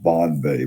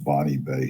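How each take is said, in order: First: The first word has one syllable. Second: The first word has two syllables. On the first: "I think this is pronounced Bon Bay" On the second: "but maybe it's pronounced Bonnie Bay"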